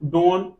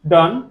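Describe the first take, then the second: First: The vowel is a long oh sound. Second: The vowel is a short uh sound. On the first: The speaker calls it wrong. "ये तो ऐसे पढ़ेंगे। लेकिन नहीं" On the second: The speaker calls it right. "अ का उच्चारण"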